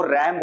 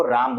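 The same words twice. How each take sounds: First: रैम with the open "a" of "cat"; English pronunciation. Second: राम with a long "aa"; Hindustani pronunciation. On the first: Teacher showing how the English say RAM, रैम with "a" as in cat. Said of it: "अंग्रेज लोग R ए M को रैम बोलता है". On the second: Teacher showing how Indians say RAM, राम with long "aa". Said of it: "हिंदुस्तानी लोग R ए M को राम". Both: Shown as a demonstration.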